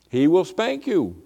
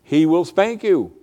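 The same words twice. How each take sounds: The two takes are said the same way.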